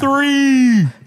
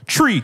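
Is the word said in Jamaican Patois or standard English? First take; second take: standard; Patois. First: The word is said with a standard English th sound. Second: The word is said in Patois, th becoming t.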